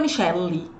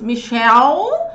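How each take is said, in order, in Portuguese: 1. A palavra tem uma vogal depois do L. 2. A palavra termina no L, sem vogal. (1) "por isso que não fica Michelle" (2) "percebe que o E não é falado nem no nome Michelle?"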